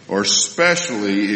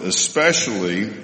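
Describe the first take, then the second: First: Specially said without the leading vowel, /spɛʃli/, a little slower; specially, starting straight on the s. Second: Especially said with the leading e-sound, /əspɛʃli/; especially with the initial vowel. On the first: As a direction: drop the front vowel: specially. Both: Shown as a demonstration. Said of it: "two different ways of saying the same word".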